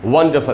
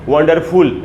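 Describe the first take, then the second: First: The last syllable has a reduced schwa vowel. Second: The last syllable has a full 'ful' vowel. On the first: The speaker calls it right. "वंडरफुल ऐसे पढ़ेंगे" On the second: The speaker calls it wrong. "ऐसे नहीं पढ़ना है"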